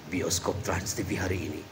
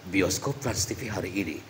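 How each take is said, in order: No difference in how they are said.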